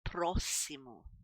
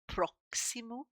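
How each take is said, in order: First: The x is said as a double s. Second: The x is not said as a double s. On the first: The speaker calls it right. "This is sounding like a double S here" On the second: The speaker calls it wrong. "A lot of people think that this is pronounced próximo, but it isn't"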